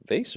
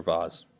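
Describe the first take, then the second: First: "vase" rhyming with face; American-style "vays" for vase. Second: "vase" with an AH vowel and z ending; the alternative "vahz" pronunciation of vase. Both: Shown as a demonstration. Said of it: "I'm gonna say vase".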